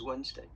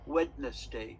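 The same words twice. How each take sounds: First: The D in the middle is silent. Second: The D in the middle is pronounced. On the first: The speaker calls it right. "but actually how you say it is" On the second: The speaker calls it wrong. "sometimes little children, if they read, they say"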